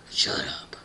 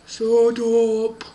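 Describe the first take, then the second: First: Hushed, breathy villain dismissal; Lord Voldemort. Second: Loud, drawn-out booming order; gruff doorkeeper. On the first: Villain silences the shocked girl, harsh whisper. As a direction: hiss it in a whisper. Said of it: "And he's like". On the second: Person behind the door silences the family, loud booming voice. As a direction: boom it at the captives. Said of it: "the person behind the door was like". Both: Acted.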